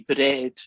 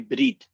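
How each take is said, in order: First: It has the short American vowel of bed. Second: It has a long Scottish vowel like bead.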